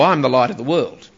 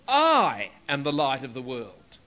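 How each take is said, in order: First: It is said casually, without stress on "I". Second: The stress falls strongly on "I".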